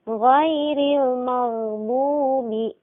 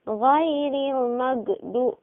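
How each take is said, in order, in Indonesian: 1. Bunyi gh mengalir lancar tanpa pantulan. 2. Bunyi gh dihentikan dengan lepasan yang memantul. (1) "Mengalir suaranya, tapi tertahan nafas" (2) "Membunyikan qalqalah padanya ketika disukunkan"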